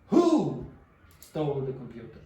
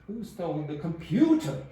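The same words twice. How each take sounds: First: The word who carries the main stress. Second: The word computer carries the main stress. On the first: The question is about which person did it. "The person. Who?" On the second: The question is about which object was taken. "Computer. Yeah"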